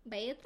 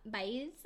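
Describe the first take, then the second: First: "Baeza" with the z said as th; lisped Castilian z in "Baeza", tentatively; Spanish pronunciation. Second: Said in the usual way. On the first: Shown as a demonstration. Host attempting [name]'s Spanish surname, "Baeza" with a th for z. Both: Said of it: "'Cause she's Spanish".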